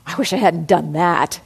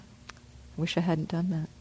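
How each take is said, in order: First: The voice sounds harsh and self-critical. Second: The voice sounds soft and gently regretful. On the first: The speaker is beating themselves up. The speaker calls it wrong. "there's that kind of tone in how we might speak to ourselves" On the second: The speaker feels honest regret and wishes to do better. The speaker calls it right. "Or, yeah"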